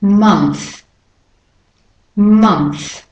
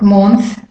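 First: Month said "munth", falling; short "uh" vowel. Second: Month mispronounced as "mawnth"; wrong "o" vowel. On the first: Teacher models the correction twice, Month as "munth". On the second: Teacher shows the mistake, month as "mawnth". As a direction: month with rounded "o", rising. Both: Shown as a demonstration. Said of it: "So it's not month".

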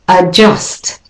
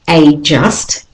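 First: Adjust with a schwa start, uh-JUST; right way. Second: A just with a full AY, AY JUST; a just as two stressed words; wrong way. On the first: Teacher models adjust with a schwa. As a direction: adjust begun with a weak uh. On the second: Teacher shows how not to say a just. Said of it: "the next word is not a just". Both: Shown as a demonstration.

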